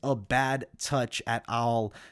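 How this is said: It is said in a thick, heavy accent.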